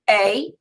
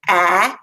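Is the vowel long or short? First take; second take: long; short. First: The vowel is long, like in 'cake'. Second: The vowel is short, like in 'can'. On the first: "Those are our long vowel sounds" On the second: "Now let's say the short vowel sounds"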